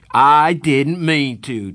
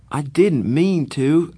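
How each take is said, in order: First: Slow, loud mocking echo; mocking shout. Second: Pleading. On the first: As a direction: throw his words back, shouting. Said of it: "Darry shouted". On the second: Acted. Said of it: "I pleaded with Darry".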